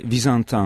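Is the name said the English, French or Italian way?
French. The name is pronounced the French way. "vous pouvez le prononcer à la française"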